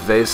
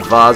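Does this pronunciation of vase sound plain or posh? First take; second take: plain; posh. First: The word is said in an ordinary way. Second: The word is said in a posh-sounding way.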